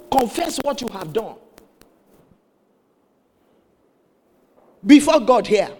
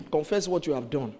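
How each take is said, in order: First: Higher emphatic command, building loud; retold stern pastor. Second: Retold pastor's instruction. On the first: Pastor demands confession from the woman, forceful retold command. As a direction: press the order, landing loudly on God. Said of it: "Pastor said". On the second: Pastor asks the woman, restrained low-key command. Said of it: "he said".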